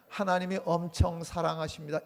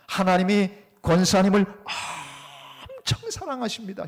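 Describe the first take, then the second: First: The word 엄청 is said flatly, without emphasis. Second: The word 엄청 is said with strong emphasis.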